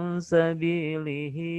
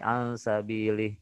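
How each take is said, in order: First: A short vowel after the h runs into the next word. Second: It stops on the final h, with no vowel. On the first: The reader joins the phrase to the next words. "kalau kita baca wasol ... Disambung gitu ya" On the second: The reader pauses at the end of the phrase. "Kalau dia dibaca wakof, maka dia tidak dikatakan sebagai marsila"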